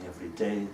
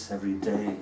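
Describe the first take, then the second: No difference in how they are said.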